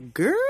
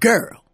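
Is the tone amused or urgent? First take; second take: amused; urgent. First: The word sounds knowing and amused. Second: The word sounds urgent and alarmed. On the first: Something juicy happened that you missed. "you should have been there, sis" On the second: Something serious just happened. "That's an urgency. That is what happened"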